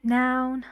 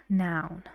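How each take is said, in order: First: "Noun" said higher, as the stressed half; stressed first noun. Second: "noun" dropped low, without stress; unstressed second noun. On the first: Teacher modelling a two-noun compound for learners, stressed "Noun". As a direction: give "Noun" the high stressed pitch. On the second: Teacher modelling a two-noun compound for learners, unstressed "noun". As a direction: let "noun" fall lower and softer, unstressed. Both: Shown as a demonstration. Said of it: "the stress is on the".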